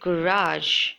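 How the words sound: It is said in an American accent. "the Americans pronounce it as garage"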